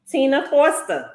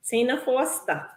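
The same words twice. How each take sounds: First: Said in the usual way. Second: "Tina Foster" in her home accent, softer; accent slipping out. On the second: Real, not acted. Host calling a giveaway winner, her accent coming out. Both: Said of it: "All that accent came out".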